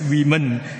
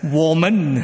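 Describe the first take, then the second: First: It is said as the English word women. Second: It is said as the Mandarin pinyin reading. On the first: The speaker calls it wrong. "is not pronounced as women" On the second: The speaker calls it right. "it's pronounced as woman"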